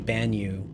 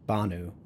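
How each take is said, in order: First: A 'y' glide comes after the n. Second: No 'y' glide comes after the n. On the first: The speaker calls it wrong. "if you say Banyu, people get very upset" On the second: The speaker calls it right. "Like it's Banu"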